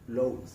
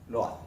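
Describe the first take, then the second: First: The vowel is said as one gliding ow sound. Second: The vowels are said as separate Spanish o and a. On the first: The speaker calls it right. "realmente el sonido de esta palabra en inglés es loud" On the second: The speaker calls it wrong. "inicialmente la podríamos asociar con el sonido lo A"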